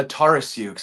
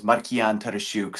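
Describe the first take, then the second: First: Tarasiuk said as TAR-a-syook; correct everyday pronunciation. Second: Markian Tarasiuk as mar-kee-AHN ta-ta-SHOOK, with tapped r; Ukrainian pronunciation. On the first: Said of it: "it's just the Tara instead of Tara". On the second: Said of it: "the more complicated way to say my name". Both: Shown as a demonstration.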